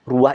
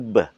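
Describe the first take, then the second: First: The word is said with a 'u' vowel, as ruah. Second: The word is said with 'e' and a 'b', as rebah. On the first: This is the Javanese form. "Yang artinya dalam bahasa Jawa tuh ruah" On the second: This is the Madurese form. "menjadi rebah karena pelafatan"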